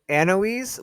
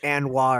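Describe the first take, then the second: First: The name rhymes with Eloise, ending in z. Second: The name ends in an open wa vowel. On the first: This is the pronunciation the author intended. "I was doing Anoise, like Eloise, but Anne instead" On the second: Some readers say the name this way. "people who are going like Anwa or something like that"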